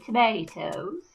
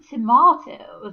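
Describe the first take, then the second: First: The word is said with an American accent. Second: The word is said with a non-American accent. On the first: "as the Americans would say" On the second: "as I would say"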